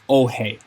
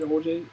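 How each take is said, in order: First: The name ends with an H sound. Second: The name ends with a J sound. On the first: It is the real pronunciation. The speaker calls it right. "it is pronounced oh hey" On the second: It is read from the spelling. The speaker calls it wrong. "they're saying O J because that's um what they're trying to read"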